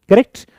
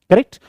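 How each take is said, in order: The two takes are said the same way.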